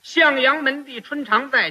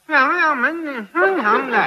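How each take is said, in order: First: It is spoken plainly, like ordinary speech. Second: It is drawn out with no nasal resonance.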